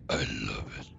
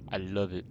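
First: Very low, mock-deep voice; playful bass-voiced echo; deep put-on voice. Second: Said in the usual way. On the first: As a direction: drop right down low and softer for a playful echo. Repeats it in a put-on voice.

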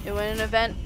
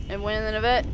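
First: Said in the usual way. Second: "an event" blurred from "a vent" as a joke; playful mispronunciation. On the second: Shown as a demonstration. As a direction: slur "a vent" into "an event" on purpose. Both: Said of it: "It went in the vent".

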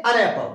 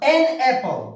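First: "an" said as a quick unstressed "un" before apple; weak an. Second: "An" said as a full stressed "en" before apple; strong an. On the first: Teacher shows students the everyday weak "an", unstressed "un". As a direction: slur "an" into a light "un". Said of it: "अन नहीं होगा". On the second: Teacher shows students the stressed "An", full "en" sound. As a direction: punch "An" as a clear "en". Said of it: "इसका pronunciation जो है एन होगा". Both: Shown as a demonstration.

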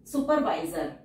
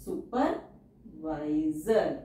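First: Said in the usual way. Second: supervisor drawn out very slowly; slow teacher dictation. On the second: Shown as a demonstration. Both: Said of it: "teacher says word then dictates".

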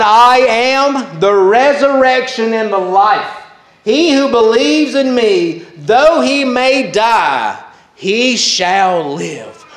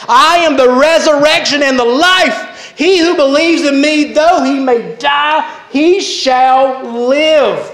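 First: Said in the usual way. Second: Higher-pitched, impassioned proclamation of scripture; fervent declaration. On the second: Acted. Preacher repeats Jesus' great promise to the congregation, fervent declaration. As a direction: proclaim it with soaring conviction, drawing out the last words.

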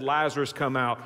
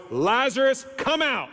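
First: Said in the usual way. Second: High, commanding call; loud voice. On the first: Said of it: "when Jesus said". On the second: Acted. Jesus calling Lazarus out of the grave, in a loud voice. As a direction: call out as if summoning someone from a tomb. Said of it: "he says in a loud voice".

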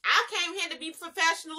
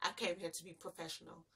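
First: Higher, laughing mock quote; mocking her. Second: Much softer, lower mock mutter; "I came here to be professional" muttered under the breath in mockery; mocking her. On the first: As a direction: laugh while mimicking her line "I came here to be professional". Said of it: "she gonna say something".

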